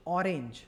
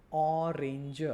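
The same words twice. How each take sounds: First: Said in the usual way. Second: ઓરેન્જ with a long, held opening ઓ; ઓરેન્જ broken slowly into sounds, opening vowel held; first sound drawn out. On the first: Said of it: "જેમ કે હું બોલીશ ઓરેન્જ". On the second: Shown as a demonstration. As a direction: stretch the ઓ of ઓરેન્જ, then finish the word. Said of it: "અ આવ્યું".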